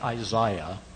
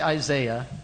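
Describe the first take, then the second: First: It is said in the British pronunciation. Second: It is said in the speaker's own non-British pronunciation. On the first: "We're in England here. ... you guys say Isaiah" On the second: "I say Isaiah"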